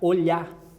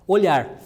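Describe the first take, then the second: First: The final R sound is dropped. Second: The final R sound is pronounced.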